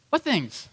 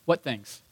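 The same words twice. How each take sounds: First: "What things?" asked higher, in mock innocence; playing dumb. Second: Said in the usual way. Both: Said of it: "He plays dumb".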